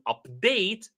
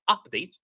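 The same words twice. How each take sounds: First: The stress is on the second syllable. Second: The stress is on the first syllable. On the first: It is used as a verb. The speaker calls it right. "If it is a verb, we put the stress on the second syllable" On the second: It is used as a noun. The speaker calls it wrong. "not update"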